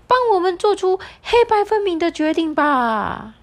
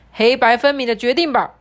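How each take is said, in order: First: Much higher, insistent parrot. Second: Loud, insistent demand; bossy animal voice. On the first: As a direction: squawk it up high and pushy. Parrot demands a decision. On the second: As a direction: lean on the zebra to decide. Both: Acted.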